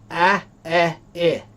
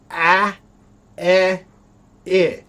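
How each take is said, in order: First: The vowels sound nearly alike, mouth barely opening. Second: The vowels sound clearly different, mouth opening wide. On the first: The speaker calls it wrong. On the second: The speaker calls it right.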